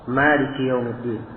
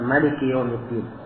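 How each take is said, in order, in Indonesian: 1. Vokal pertama pada Maliki panjang. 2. Vokal pertama pada Maliki pendek. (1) "Malik dengan alif setelah mim, jadi maknanya dibaca panjang" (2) "membaca dengan tanpa alif"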